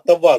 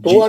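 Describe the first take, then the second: First: The first vowel is an 'a' sound. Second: The first vowel is an 'u' sound. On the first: The speaker calls it right. "तव्वा तव्वा जबर से" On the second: The speaker calls it wrong. "तुआ नहीं"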